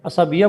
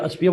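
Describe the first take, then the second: First: A vowel is heard between the s and b. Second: The s and b run together without a vowel. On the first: The speaker calls it right. "ए एस ए से बोला जाता है" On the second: The speaker calls it wrong. "लेकिन अस्बिया गलत होता है"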